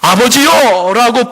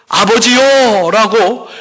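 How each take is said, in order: First: "아버지요" said slow and high, each syllable stretched; stress on 아버지요. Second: "아버지요" drawn out slow and high, ending on a rise; stress on 아버지요. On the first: Pastor modelling for the congregation how to call God, slow emphatic "아버지요". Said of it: "부를 때에". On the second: Pastor teaching the congregation how to call God, slow emphatic "아버지요". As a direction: lean hard on "아버지요", stretching each syllable. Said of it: "더 강조하여". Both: Shown as a demonstration.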